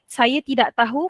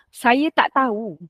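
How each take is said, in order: First: The word for 'not' is said in full. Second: The word for 'not' is said shortened. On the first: This is the formal way of speaking. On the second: This is the casual way of speaking.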